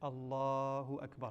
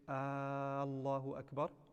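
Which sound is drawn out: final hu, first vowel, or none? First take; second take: none; first vowel. First: Neither the first vowel nor hu is drawn out. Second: The first vowel of Allahu is drawn out. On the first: The speaker calls it right. "the way to say it correctly" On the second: The speaker calls it wrong. "To lengthen the first alif becomes istifham"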